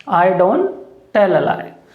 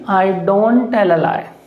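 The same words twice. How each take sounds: The two takes are said the same way.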